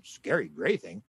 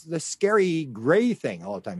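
First: Much lower, softer and slow, as if baffled; puzzled echo. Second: Said in the usual way. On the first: Retold or imitated. The alien echoes her words, low, slow and puzzled. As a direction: repeat it back, low and bemused. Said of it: "He said". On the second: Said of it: "she said to him".

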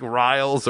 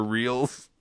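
First: Riles rhyming with "miles"; long I in Riles. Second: Reels rhyming with "wheels"; long E in Reels. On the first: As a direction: say Riles with an "eye" vowel. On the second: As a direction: say Reels with an "ee" vowel. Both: Shown as a demonstration. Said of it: "He doesn't know the name".

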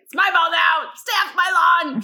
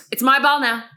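First: Loud, high cranky shout; Mister Nevercracker. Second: Petty declaration. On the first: Woman likening herself to a cartoon grouch, cranky shout. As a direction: impersonate a lawn-guarding grouch, shouting. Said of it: "I was Mister Nevercracker from Monster House". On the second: Retelling her own petty confiscation. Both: Retold or imitated.

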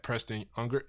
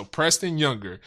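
First: "Unger" without the opening Y sound; name misread as Unger. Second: "Younger" with an opening Y sound; corrected name pronunciation. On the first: Host unsure of the guest's surname, misreading it as "Unger". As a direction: say "Unger" starting on a plain vowel. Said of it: "Am I saying it right". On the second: Host repeating the guest's corrected surname, "Younger" with a Y. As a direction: say "Younger" clearly, starting with Y as in yes. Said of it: "but pronounced Younger". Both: Real, not acted.

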